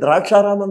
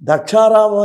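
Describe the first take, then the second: First: The name begins with 'drak', with an r sound. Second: The name begins with 'dak', with no r sound. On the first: It wrongly links the name to grapes. The speaker calls it wrong. "చాలామంది తెలియక ఏమంటారో తెలుసా అండి? ... అలా అనకూడదండి" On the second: It names the place where Daksha performed a sacrifice. The speaker calls it right. "దక్షారామం అనే పలకాలి మనం"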